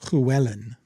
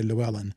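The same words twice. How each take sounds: First: The name is said with Welsh-style sounds. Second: The name is said with English-style sounds. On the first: "ready for this?" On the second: "us mere mortals would say"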